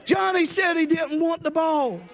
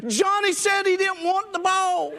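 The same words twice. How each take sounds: First: Laughing at own joke. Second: Laughing punchline. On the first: Real, not acted. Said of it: "repeats punchline laughing". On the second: Retold or imitated. Punchline, player answers coach.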